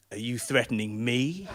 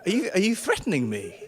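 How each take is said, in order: First: Slow, lower, suspicious question; menacing echo. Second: Said in the usual way. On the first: Acted. Driver turning the question back on passenger, slow menace. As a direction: throw it back slowly as a threat. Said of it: "narrow his eyes at me and go".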